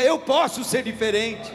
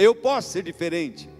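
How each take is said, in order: First: It is said louder still. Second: It is said louder.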